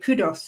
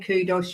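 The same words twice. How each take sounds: First: It ends in a 'dus' sound, unlike 'kudos'. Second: It sounds like the everyday word 'kudos'. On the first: The speaker calls it right. "you say Kudos" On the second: The speaker calls it wrong. "you don't say Kudos"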